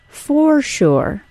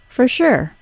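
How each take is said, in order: First: Both words are said fully and carefully. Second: It is said fast with a reduced first word. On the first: "the informal for sure" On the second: "when said quickly, becomes"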